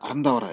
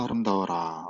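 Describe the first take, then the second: First: It is said as a firm, ordering command. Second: It is said as an admiring, wondering exclamation. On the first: The listener is ordered to be beautiful. The speaker calls it wrong. "이 명령형은 명령하는 거기 때문에 아름다워라 이렇게 좀 발음을 해야겠죠" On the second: The speaker marvels at how beautiful something is. The speaker calls it right. "이건 어이구 아름다워라 ... 감탄형입니다"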